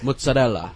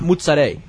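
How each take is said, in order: First: Every letter is sounded, including the final vowel. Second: The word is clipped, dropping the final vowel. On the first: This is how it is said in Italy. The speaker calls it right. "In Italy, those words are pronounced with all the letters" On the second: This is how it is commonly said in America. The speaker calls it wrong. "It's not"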